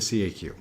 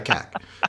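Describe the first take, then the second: First: The acronym is spelled out letter by letter. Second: The acronym is said as one word, cack. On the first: This is the English way to say it. "but in English, you say the C A Q" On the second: This is the French way to say it. "In French, you say la C A C"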